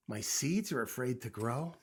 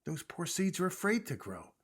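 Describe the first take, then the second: First: "grow" rising into a question; puzzled echo question. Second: "afraid" pitched up, falling at the end; explaining statement. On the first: Toad repeats what Frog told him, questioning. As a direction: lean on "seeds", lift "grow" at the end. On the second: Frog explains the seeds to Toad, stating it firmly. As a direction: stress "afraid", then let the tune fall. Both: A narrator's reading.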